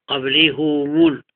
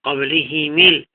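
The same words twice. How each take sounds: First: قبله مول said as qablihu-mul; "u" vowels through قبله مول; damma on both. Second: قبله ميل said as qablihi-mil; "i" vowels through قبله ميل; kasra on both. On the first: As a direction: link قبله مول with "oo"-coloured h and m. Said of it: "وضمهما شفا". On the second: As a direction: link قبله ميل with "ee"-coloured h and m. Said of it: "كسر الهاء والميم". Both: Shown as a demonstration.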